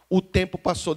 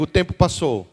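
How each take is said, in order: First: Said in the usual way. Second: "O tempo passou" declared louder, stress on "tempo"; declared line. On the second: Shown as a demonstration. Pastor leading the congregation in a declaration, louder proclaiming. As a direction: proclaim "O tempo passou" for all to repeat, leaning on "tempo". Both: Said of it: "Declare comigo".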